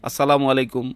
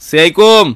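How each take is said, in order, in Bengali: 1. অভিবাদনটি পুরোপুরি ও স্পষ্টভাবে উচ্চারিত হয়েছে। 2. অভিবাদনটি জড়ানো ও সংক্ষিপ্তভাবে বলা হয়েছে। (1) "খুব স্পষ্টভাবে যদি দেয়" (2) "সালামটা স্পষ্ট না"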